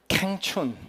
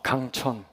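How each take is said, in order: First: The name sounds like 'kaeng-chun'. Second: The name sounds like 'gang-cheon'. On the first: The speaker calls it wrong. "너무 촌스러운 거예요" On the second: The speaker calls it right. "이름이 참 멋있잖아요"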